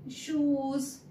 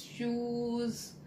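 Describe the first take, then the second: First: Shoes with a long, pushed oo, higher; teacher modelling the long oo in shoes; stressed oo. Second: Said in the usual way. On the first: Shown as a demonstration. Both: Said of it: "we spoke the oo sound with lot of stress".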